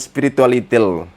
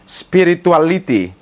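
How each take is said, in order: First: The word ends with a 'til' sound. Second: The word ends with a 'tee' sound. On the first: The speaker calls it wrong. "bukan spiritualitil ya" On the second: The speaker calls it right. "Spirituality, bukan spiritualitil ya"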